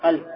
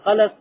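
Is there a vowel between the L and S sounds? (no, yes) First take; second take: no; yes. First: No vowel is heard between the L and S. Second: A vowel is heard between the L and S. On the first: "Сукуном над лям" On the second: "бит тахрик. То есть двумя фасхами"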